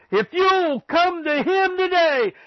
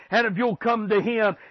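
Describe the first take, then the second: First: Much higher and slower on "you'll"; preacher raising his voice to call the lost; soaring altar-call plea. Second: Said in the usual way. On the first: Acted. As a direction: lift "if you'll come to him today" up and stretch it out.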